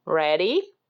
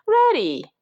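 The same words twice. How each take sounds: First: Said in the usual way. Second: High, loud storybook reply; eager shouted answer in a high voice. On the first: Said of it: "she said". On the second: A narrator's reading. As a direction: shout back high, as Jack. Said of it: "shouted Jack".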